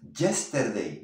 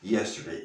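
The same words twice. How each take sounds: First: The word begins with a buzzing j-like sound. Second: The word begins with a soft ee-like glide. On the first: The speaker calls it wrong. "no es yesterday, no" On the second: The speaker calls it right.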